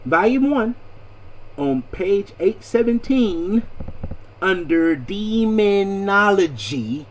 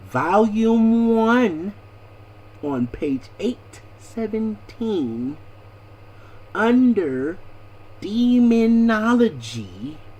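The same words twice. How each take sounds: First: The phrase is said at a quicker pace. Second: The phrase is said at a slower pace.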